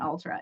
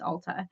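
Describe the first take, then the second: First: An R sound follows the T. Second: No R sound follows the T. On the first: The speaker calls it wrong. "It's not Ultra" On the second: The speaker calls it right. "It's Ulta"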